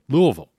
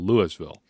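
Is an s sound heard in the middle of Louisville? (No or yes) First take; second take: no; yes. First: No s sound is pronounced in the middle. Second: An s sound is pronounced in the middle. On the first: The speaker calls it right. "Don't pronounce the S" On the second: The speaker calls it wrong. "Come on, amateur hour"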